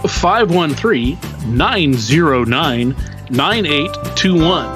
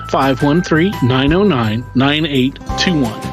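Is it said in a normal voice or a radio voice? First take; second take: radio voice; normal voice. First: It is said in a put-on radio announcer voice. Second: It is said in a normal speaking voice.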